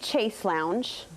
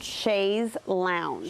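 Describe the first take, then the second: First: The first word ends with an s sound. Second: The first word ends with a z sound. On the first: The speaker calls it wrong. "I used to say Chase Lounge" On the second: The speaker calls it right. "Chaise with a Z"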